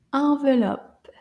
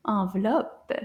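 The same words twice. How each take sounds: First: Said in the usual way. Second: Envelope said quicker; a little faster. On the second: Shown as a demonstration. Teacher says the word faster for the child. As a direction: speed up envelope. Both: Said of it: "Let's say it a little faster".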